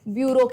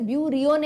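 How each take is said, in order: First: It is said with two syllables, byoo-roh. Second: It is said with three syllables, byoo-ree-oh. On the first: The speaker calls it right. "इसे ब्यूरो कहते हैं" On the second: The speaker calls it wrong. "इसे ब्यूरियो नहीं कहते हैं"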